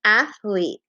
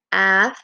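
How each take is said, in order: First: Said in the usual way. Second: "Athlete" split into ath, long pause, lete; syllable by syllable. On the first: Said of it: "be my echo". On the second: Shown as a demonstration. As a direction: tap out "Athlete" as two separate syllables. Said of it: "tap out the syllables".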